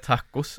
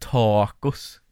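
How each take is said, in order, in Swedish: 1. A-ljudet är kort och vanligt. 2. A-ljudet dras ut väldigt långt.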